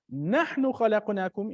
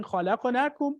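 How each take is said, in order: First: نحن given weight before خلقناكم; stress on نحن. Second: Said in the usual way. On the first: Shown as a demonstration. Teacher contrasting the verse with and without نحن, stressing نحن. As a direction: lean on نحن to show emphasis. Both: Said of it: "instead of just saying".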